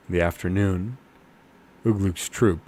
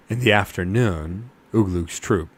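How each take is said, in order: Both takes have the same delivery.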